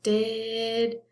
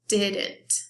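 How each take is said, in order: First: "Didn't" split as diiid, nt with a long gap; broken into syllables. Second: Said in the usual way. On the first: Shown as a demonstration. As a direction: hold the first syllable of "Didn't", pause, then nt. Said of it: "Let's listen". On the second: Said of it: "that sounds like two".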